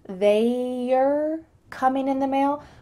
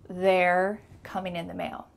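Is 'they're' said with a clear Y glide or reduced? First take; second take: clear; reduced. First: They're has a clear Y glide in it. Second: They're has no Y glide, sounding like there. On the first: "with that clear Y sound" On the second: "You're going to hear"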